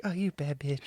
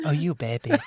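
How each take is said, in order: First: Shy, soft whisper; inner monologue. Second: Light, soft laughing boxer voice; a hint of a gentle Mike Tyson impression. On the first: Retold or imitated. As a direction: whisper it shyly to yourself. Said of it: "but in a whisper and, like, kinda shyly". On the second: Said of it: "a really soft Mike Tyson".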